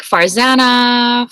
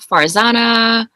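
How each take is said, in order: First: "Farzana" slow, with a short "a" as in "van"; first correct pronunciation. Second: "Farzana" slow, with an open "ah" in the middle; second correct pronunciation. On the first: Guest showing either way is correct, slow "Farzana" with "zan". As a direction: draw out "Farzana", rhyming with "banana". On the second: Guest showing either way is correct, slow "Farzana" with "zah". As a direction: draw out "Farzana" as far-ZAH-na. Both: Shown as a demonstration. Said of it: "either of those pronunciations are correct".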